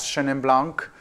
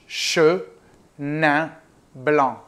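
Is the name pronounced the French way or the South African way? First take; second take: South African; French. First: It is pronounced with a South African accent. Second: It is pronounced with a French accent. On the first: "the South African way" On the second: "in French"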